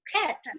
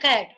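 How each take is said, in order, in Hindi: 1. पहला व्यंजन साँस वाला, महाप्राण 'k' है। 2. पहला व्यंजन सादा, अल्पप्राण 'k' है। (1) "वो लोग खैट कैट क और ख का मिक्स अप होता है" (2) "हम लोग ऐसे बोलचाल की भाषा में बोलते हैं ना कैट"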